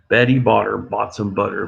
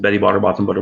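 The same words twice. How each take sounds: First: It is said at a normal pace. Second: It is said very fast.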